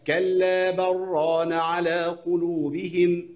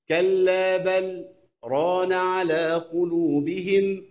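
First: The words run on without any pause. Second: A brief silent pause comes before the third word. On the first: "ده بعدم السكت" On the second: "هنعمل السكتة"

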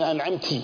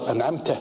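First: The word ends with an i vowel. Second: The word ends with an a vowel. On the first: A woman did the favor. The speaker calls it wrong. "جعلت امرأة هي المنعمة" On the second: The addressed one did the favor. The speaker calls it right. "أنعمت أنت يا رب"

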